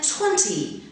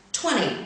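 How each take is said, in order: First: Twenty with a crisp T in the middle. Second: Twenty with the middle T dropped, like twenny; American twenty. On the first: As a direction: say twenty the British way, sharp T. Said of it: "twenty in received pronunciation is pronounced". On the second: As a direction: say twenty the American way, T flapped away. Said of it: "twenty in General American". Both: Shown as a demonstration.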